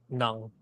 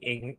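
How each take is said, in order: First: It starts with an n and a vowel. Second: It starts with a vowel sound. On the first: This is how it is read in the Philippines. "in the Philippines, it would be read as Nung" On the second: This is the usual reading for Americans. "It's how it's normally being read for you guys"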